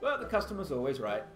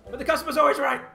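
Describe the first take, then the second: First: It is said at a calm, normal volume. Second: It is said loudly, like an exclamation. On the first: The speaker calls it wrong. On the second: The speaker calls it right.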